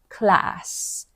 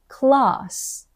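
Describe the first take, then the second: First: The vowel is a flat, front a sound. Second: The vowel is a long, open ah sound. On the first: The speaker calls it wrong. "not class" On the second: The speaker calls it right. "They say class"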